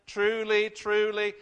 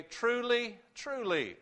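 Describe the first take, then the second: First: Louder, pressing hard on each truly; loud emphatic proclamation. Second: Said in the usual way. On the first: Acted. Preacher voicing Jesus to the congregation, loud and emphatic. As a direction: ring it out like a flashing sign. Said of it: "shining a light bulb on this and saying".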